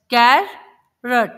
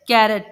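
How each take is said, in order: First: carrot broken in two, कै, pause, रट; split into syllables. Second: Said in the usual way. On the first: Shown as a demonstration. Teacher showing children two syllables, carrot split by a pause. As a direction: say carrot as two slow, separate beats. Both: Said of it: "दो अलग-अलग sounds को".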